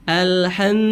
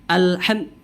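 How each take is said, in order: Both takes have the same delivery.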